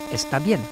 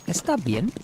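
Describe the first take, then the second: First: The voice falls at the end like a statement. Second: The voice rises at the end like a question. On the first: It states that she is fine. "She's fine" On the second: It asks whether she is okay. "it's exactly the same but as a question"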